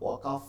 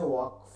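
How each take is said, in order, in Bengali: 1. k আর f-এর মাঝে একটা অতিরিক্ত স্বরধ্বনি শোনা যায়। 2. k আর f কোনো স্বরধ্বনি ছাড়াই একসাথে আসে। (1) "ওয়াকাফ না, অনেকে ওয়াকাফ বলে" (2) "আমাদের প্রথম শর্ত হচ্ছে ওয়াকফ"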